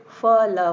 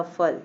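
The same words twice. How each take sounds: First: Loud, spelled-out फ, ल, one letter at a time; separate letters. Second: Said in the usual way. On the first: Shown as a demonstration. Teacher to pupils, spelling out the letters: loud and separate. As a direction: say फ and ल loudly as two separate letters. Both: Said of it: "जैसे कि देखिए".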